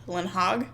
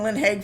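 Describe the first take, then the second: First: The last word has a vowel like 'hog'. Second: The last word has a vowel like 'hay'. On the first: This is how a translation tool says it. "Google Translate seems to think that it's Lynn Hogg" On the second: This is how the speaker had been saying it. "I've been saying Lynn Haig for a long time"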